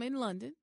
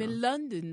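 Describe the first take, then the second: First: It is said in a plain American accent. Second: It is said in a put-on London accent.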